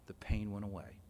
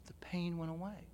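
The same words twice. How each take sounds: First: Said in the usual way. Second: Whispered, soft and hushed; hushed whisper of wonder; awed whisper. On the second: Real, not acted. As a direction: breathe it out as a private revelation. Repeated in awe.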